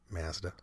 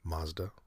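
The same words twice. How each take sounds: First: Mazda is said in a Canadian way. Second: Mazda is said in the speaker's own accent.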